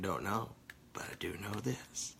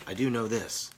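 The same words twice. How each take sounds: First: Breathy whisper, almost no voice; soft conspiratorial whisper. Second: Said in the usual way. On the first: Shown as a demonstration. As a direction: whisper it like a secret. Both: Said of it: "I can keep saying".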